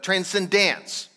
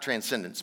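First: The ending sounds like the word 'dance'. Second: The ending does not sound like 'dance'. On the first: This is the special name for the final stage of life. The speaker calls it right. "but transcendence. Transcendence, like, you know, dance" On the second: This is the ordinary word. The speaker calls it wrong. "Not transcendence"

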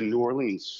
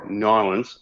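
First: The city name is said the usual outsider way. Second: The city name is said the local way.

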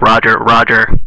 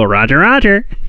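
First: It is said in a flat, robotic voice. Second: It is said in an expressive, characterful voice.

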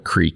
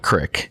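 First: The word has a long ee vowel. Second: The word has a short i vowel. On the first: The speaker calls it wrong. "I'm saying it wrong" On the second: The speaker calls it right. "From everyone around here, you'd call it a crick"

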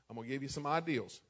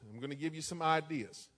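First: Ideas is said the Illinois way, like ideals. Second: Ideas is said in his ordinary way.

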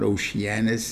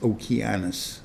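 First: The C is soft, not a k sound. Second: The C is hard, like a k sound. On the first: The speaker calls it wrong. "It's not Oceanus" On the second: The speaker calls it right. "it's a hard C"

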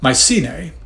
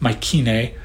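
First: The C is sounded like an S. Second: The C is sounded like a K. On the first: "I was raised with this pronunciation" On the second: "Some people pronounce the C in Mycenae hard, like a K"

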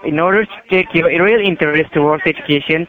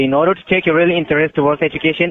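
First: It is said slowly. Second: It is said fast.

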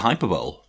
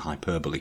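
First: It has three syllables, ending like 'bowl'. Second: It has four syllables, ending in 'bo-lee'. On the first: "just pronounce it hyperbole" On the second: "pronouncing hyperbole correctly"

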